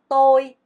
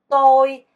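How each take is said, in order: The two takes are said the same way.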